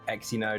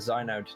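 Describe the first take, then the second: First: The name begins with an eks sound. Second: The name begins with a z sound. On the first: The speaker calls it wrong. "not not Exynode" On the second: The speaker calls it right. "You pronounce it Zynode"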